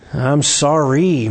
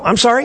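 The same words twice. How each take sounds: First: The apology sounds annoyed and dismissive. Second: The apology sounds surprised and taken aback. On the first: The other person overreacted. "casting it on them and saying, man, you made a big deal about this" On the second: The speaker did not know it mattered. "what a surprise that it was that big a deal"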